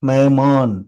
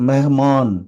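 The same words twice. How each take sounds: The two takes are said the same way.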